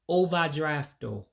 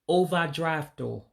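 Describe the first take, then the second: First: It is said with an Igbo accent, ending in o. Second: The same.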